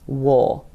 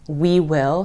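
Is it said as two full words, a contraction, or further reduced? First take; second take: further reduced; two words. First: It is reduced further to sound like wool. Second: Both words are said in full.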